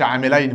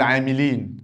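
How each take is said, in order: First: عاملين with a diphthong, "aamilayn"; rejected dual ending. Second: عاملين with a long "ee", "aamileen"; correct plural ending. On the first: Teacher shows what he doesn't say, عاملين as "aamilayn". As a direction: end عاملين in "-ayn", as for two people. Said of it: "ما بقولش عاملين". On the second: Teacher gives the plural he means, عاملين as "aamileen". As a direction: end عاملين in "-een", as for a group. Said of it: "بقول عاملين". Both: Shown as a demonstration.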